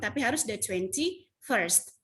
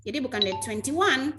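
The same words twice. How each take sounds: First: Slow, careful "the twenty-first" with a clear -first ending; correct form. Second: "the twenty-one" said as a plain cardinal number; quick "the twenty-one", the wrong way to say the date; wrong form. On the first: Teacher showing students the correct slow "the twenty-first". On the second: Teacher showing students the wrong reading of "the twenty-one". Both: Shown as a demonstration.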